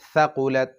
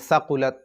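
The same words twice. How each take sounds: First: The first consonant is a soft 'th' sound. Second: The first consonant is a hissing 's' sound. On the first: The speaker calls it right. "সা পাতলা করে" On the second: The speaker calls it wrong. "এখানে সাকুলাত চলবে না ... সিন হয়ে যাবে"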